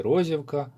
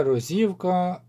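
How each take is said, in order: First: Розівка stressed on the first syllable, РОзівка. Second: Розівка stressed on the middle syllable, роЗІвка; stress on second syllable. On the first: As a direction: say Розівка with the beat on РО. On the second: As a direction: say Розівка with the beat on ЗІ. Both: Shown as a demonstration. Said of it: "якщо неправильно наголос поставив".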